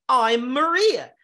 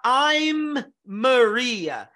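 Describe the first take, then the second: First: "I'm Maria" slow, with one shared M running "I'm" into "Maria"; linked, right way. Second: "I'm Maria" very slow, with the M of "I'm" and the M of "Maria" said separately; two separate Ms, a gap between "I'm" and "Maria"; unlinked, wrong way. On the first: Teacher showing students how Americans link the words. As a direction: join them on a single M. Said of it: "Ele vai falar". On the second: Teacher showing the way Americans don't say it. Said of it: "ele não vai falar". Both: Shown as a demonstration.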